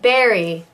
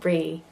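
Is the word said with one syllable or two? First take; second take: two; one. First: It is said fully with two syllables. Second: It is squeezed into a single syllable. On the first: The speaker calls it right. "there's a definite berry" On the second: The speaker calls it wrong. "It's not brie"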